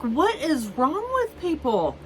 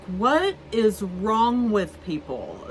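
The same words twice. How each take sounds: First: High, stunned rhetorical question; exasperated disbelief. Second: Said in the usual way. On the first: Retold or imitated. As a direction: throw it up high in outrage. Exasperated at guests.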